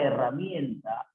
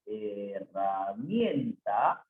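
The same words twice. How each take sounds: First: Said in the usual way. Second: "herramienta" low and very slow, he-rra-mien-ta; syllable by syllable. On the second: Shown as a demonstration. Teacher working through the sentence, "herramienta" slowly sounded out. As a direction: draw out each syllable of "herramienta".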